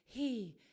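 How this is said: The vowel starts with a breathy h. The speaker calls it wrong. "if you were to have the vocal folds open, you would be going"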